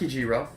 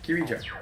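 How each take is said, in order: First: The middle syllable is ji, ending in ro. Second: The middle syllable is ri, ending in jo. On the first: The speaker calls it wrong. "not Kijiro" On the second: The speaker calls it right. "I said it right then"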